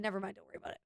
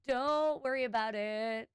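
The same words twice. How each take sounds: First: Dismissive aside. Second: Drawn-out brush-off. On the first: Retold brushing off a confused coworker. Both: Retold or imitated.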